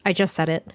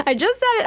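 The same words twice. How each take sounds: First: Said in the usual way. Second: "I just said it." squeaked way up high and laughing; laughing at herself, she squeaks "I just said it." up high; squeaky high, amused at herself. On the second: Shown as a demonstration. Catching her own slip, she squeaks "I just said it." up high.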